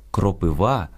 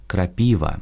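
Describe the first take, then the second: First: «кропива» stressed on the final syllable, кропивА; Ukrainian stress. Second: «крапіва» as Russian, stressed on the middle syllable, крапИва. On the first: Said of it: "українське". («кропива» — наголос на «ва») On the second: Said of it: "російське". («крапіва» — російською, наголос на «пі») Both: Shown as a demonstration.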